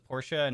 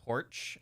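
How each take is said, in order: First: The name is said with two syllables. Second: The name is said as one syllable. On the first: The speaker calls it right. "Porsche pronounced as Porsche" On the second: The speaker calls it wrong. "not porch. I don't say porch"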